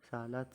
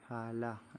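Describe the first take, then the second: First: The word ends with a 't' sound. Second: The word ends with an 'h' sound. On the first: This is the local Indonesian form. "dalam bahasa Nusantara dibaca salat" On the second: This is the form at a pause. "dalam keadaan wakaf dibaca ha"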